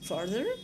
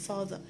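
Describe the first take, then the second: First: The R after the first vowel is pronounced. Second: The R after the first vowel is silent. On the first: "in American English, they say farther ... with the R" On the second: "In some accent, they are pronounced the same"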